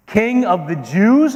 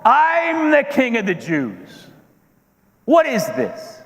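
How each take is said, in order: First: Slow, rising question, higher pitched; outraged disbelief. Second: High-pitched, indignant outburst; losing his temper. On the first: Herod reacting to news of a rival king, incredulous. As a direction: echo it back in affronted disbelief. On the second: Herod asserting his title against a newborn rival, indignant. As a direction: stretch it out in wounded royal outrage. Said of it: "But I controlled my temper". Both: Acted.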